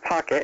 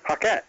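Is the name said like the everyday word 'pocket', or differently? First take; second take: like pocket; differently. First: It sounds like the everyday word pocket. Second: It sounds different from the everyday word pocket. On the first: The speaker calls it wrong. "it's not Pocket" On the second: The speaker calls it right. "it's not the pocket in your pants"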